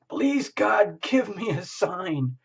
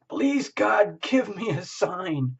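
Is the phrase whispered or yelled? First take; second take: yelled; yelled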